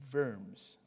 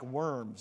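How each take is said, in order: First: The word begins with a V sound. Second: The word begins with an English W sound. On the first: The speaker calls it right. "But you would say Worms, okay? Because the W is pronounced like a V in German" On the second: The speaker calls it wrong. "It looks like worms if you just read it out in English"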